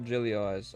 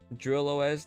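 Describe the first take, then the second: First: The first part is two syllables, 'drilly'. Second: The first part is one syllable, 'drill'. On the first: The speaker calls it wrong. "not Drilly O S" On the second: The speaker calls it right. "Drill O S, not Drilly O S"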